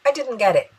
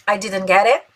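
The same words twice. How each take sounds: First: I didn't get it stressed on I, falling at the end; flat falling statement; falling tune. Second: I didn't get it ending on a rise at it; questioning rise on it; rising tune. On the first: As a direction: settle down at the end. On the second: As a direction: let it rise at the end. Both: Shown as a demonstration. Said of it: "vamos treinar a pronúncia".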